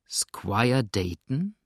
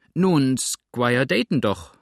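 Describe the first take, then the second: First: Very slow questioning echo, rising at the end; slow, suspicious repeat. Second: Louder, drawn-out blurted answer; flustered exclamation. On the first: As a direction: draw the name out with distrust. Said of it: "wiederholte Tom langsam und zum ersten Male mit wirklichem Misstrauen". (langsam und misstrauisch wiederholt) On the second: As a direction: call it out slowly, falling at the end. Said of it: "rief Sander, der kaum wusste, was er sagte". (laut und fahrig ausgerufen) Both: A narrator's reading.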